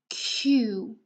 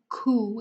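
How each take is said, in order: First: A 'y' glide comes before the vowel. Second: The consonant goes straight into the vowel. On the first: The speaker calls it right. "It's a q" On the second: The speaker calls it wrong. "we don't say a ku. It's not u, ku"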